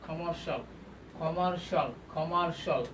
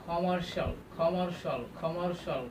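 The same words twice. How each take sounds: No difference in how they are said.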